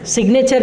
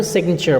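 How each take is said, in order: First: "सिग्नेचर" with a full "nay" in the middle; common mispronunciation. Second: "सिग्नेचर" with the middle vowel dropped; correct pronunciation. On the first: Teacher warning learners off a reading, "सिग्नेचर" as sig-nay-cher. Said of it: "नहीं पढ़ेंगे आप". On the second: Teacher giving the right reading, "सिग्नेचर" as SIG-n'cher. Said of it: "इसको सिग्नेचर बोलेंगे". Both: Shown as a demonstration.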